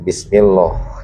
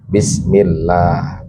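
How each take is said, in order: First: The L sound is thick and heavy. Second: The L sound is thin and light. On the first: The speaker calls it wrong. "bukan bismillah ya" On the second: The speaker calls it right. "maka bacanya tarkik. Jadi bunyinya bismillah"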